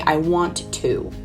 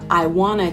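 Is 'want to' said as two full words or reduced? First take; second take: full; reduced. First: Want to is said as two full words. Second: Want to blends into one word, wanna. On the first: "I don't normally say I want to" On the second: "it becomes wanna"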